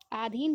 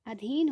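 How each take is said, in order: First: आधीन with a long aa, aa-dheen; wrong spelling. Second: अधीन with a short a, a-dheen; correct spelling. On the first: Teacher showing the wrong form आधीन with long aa. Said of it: "आधीन नहीं होता है". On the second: Teacher giving the correct अधीन with short a. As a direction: say अधीन, the right short first vowel. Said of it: "बल्कि अधीन होता है". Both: Shown as a demonstration.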